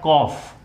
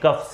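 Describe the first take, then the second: First: The vowel sounds like 'aw'. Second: The vowel sounds like 'uh'. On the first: The speaker calls it right. "इसका सही उच्चारण है कॉफ" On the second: The speaker calls it wrong. "जैसे हम लोग बोलते हैं कफ syrup"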